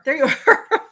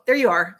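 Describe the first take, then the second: First: Higher, louder, laughing greeting; delighted find, pitched up with a laugh. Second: Said in the usual way. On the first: Real, not acted. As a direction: break into a laugh mid-phrase. Finds viewer, repeats it laughing.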